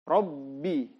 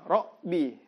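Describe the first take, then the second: First: The b is doubled with lips firmly closed. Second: The b is single and faint, not held. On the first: The speaker calls it right. "harus diucapkan secara double" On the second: The speaker calls it wrong. "Biasa orang pakai koma"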